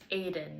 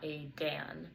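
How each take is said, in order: First: The stress is on the first syllable. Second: The stress is on the second syllable. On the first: The speaker calls it right. "stress on the first syllable" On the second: The speaker calls it wrong.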